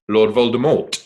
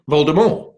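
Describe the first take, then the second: First: Voldemort with the final T pronounced; final T sounded. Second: Voldemort with a silent final T; French pronunciation. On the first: Actor showing how the films say it, Voldemort with a sounded T. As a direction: say Voldemort ending on a clear, audible T. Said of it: "'cause in the films, they call". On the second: Actor quoting the author's way, Voldemort with a French silent T. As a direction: say Voldemort the French way, higher, ending without the T. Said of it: "as in the French pronunciation". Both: Shown as a demonstration.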